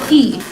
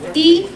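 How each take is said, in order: First: The syllable is said with the fourth tone. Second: The syllable is said with the first tone.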